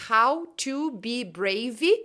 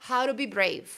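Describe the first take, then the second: First: Slow "how to be brave", clear T, ending "brei-vee"; every word apart, extra vowel after BRAVE; unlinked learner pronunciation. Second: Quick-linked "hauro bi breiv"; connected speech. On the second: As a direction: join "how to be brave", R for T, stop on V. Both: Shown as a demonstration. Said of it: "a distância que tem entre a pronúncia".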